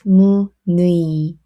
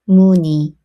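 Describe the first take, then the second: First: The second syllable is said with the vowel 'ui'. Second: The second syllable is said with the vowel 'i'. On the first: The speaker calls it wrong. "Don't try to read as" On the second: The speaker calls it right. "You can simply say"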